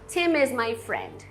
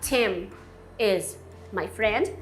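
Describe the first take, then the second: First: The m is linked into the next word. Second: The m is separated from the next word. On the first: The speaker calls it right. "você pode emendar essas duas palavras" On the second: The speaker calls it wrong. "Em vez de falar Tim is my friend"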